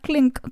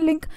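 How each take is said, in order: First: Extra consonant sounds come before the l sound. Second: The word begins directly with the l sound. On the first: This is how the word was said long ago. "इसको पूरा pronounce किया जाता था क्लिंक" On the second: This is how the word is said today. "अभी हम बहुत normally ये word use करते हैं"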